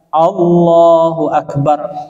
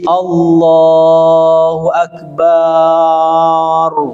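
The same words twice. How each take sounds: First: The vowel in 'bar' is kept short. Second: The vowel in 'bar' is drawn out long. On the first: God is the greatest. The speaker calls it right. "yang benar adalah Allahu Akbar. Angbar gitu ya. Tidak boleh bar" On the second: It changes the meaning into something blasphemous. The speaker calls it wrong. "memanjangkan kalimat bar di dalam Allahu Akbar"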